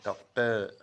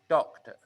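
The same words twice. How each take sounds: First: The stress is on the second syllable. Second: The stress is on the first syllable. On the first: The speaker calls it wrong. "not doctor" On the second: The speaker calls it right. "pay attention to the syllable stress"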